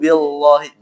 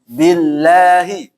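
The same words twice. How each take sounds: First: The L in Allah is thick and heavy. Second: The L in Allah is thin and light. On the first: The speaker calls it wrong. "Ini yang salah ya" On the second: The speaker calls it right. "ingat dibaca tipis"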